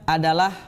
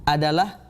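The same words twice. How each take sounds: The two takes are said the same way.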